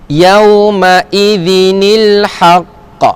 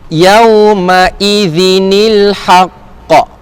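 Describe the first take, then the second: Both takes have the same delivery.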